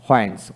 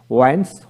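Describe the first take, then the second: First: হোয়াইন্স begun with h before the w; sounded H. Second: ওয়াইন্স begun with a plain w, no h. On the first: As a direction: say হোয়াইন্স as "hwains". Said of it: "ব্রিটিশে হ উচ্চারিত হয়". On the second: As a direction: say ওয়াইন্স as "wains". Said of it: "আমেরিকানে অ উচ্চারিত". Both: Shown as a demonstration.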